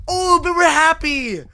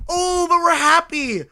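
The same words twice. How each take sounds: The two takes are said the same way.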